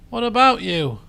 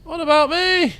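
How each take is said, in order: First: Said in the usual way. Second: High-pitched plea from someone left out; Volpus's protest. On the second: Acted. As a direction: pipe up high, playing the forgotten companion. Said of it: "Says Volpus".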